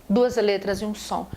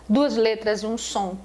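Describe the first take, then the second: No difference in how they are said.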